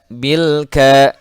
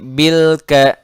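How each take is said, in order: First: The L sound is held plainly and clearly. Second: The L sound bounces with an echo. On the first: The speaker calls it right. "tapi bil ke" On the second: The speaker calls it wrong. "tidak boleh bil ke"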